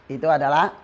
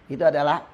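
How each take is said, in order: The two takes are said the same way.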